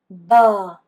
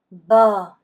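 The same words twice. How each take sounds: No difference in how they are said.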